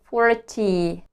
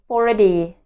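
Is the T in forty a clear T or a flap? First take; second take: clear T; flap. First: The T is a clear, crisp T sound. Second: The T is a soft flap like D. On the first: The speaker calls it wrong. "Instead of saying forty" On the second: The speaker calls it right. "I learned to say forty"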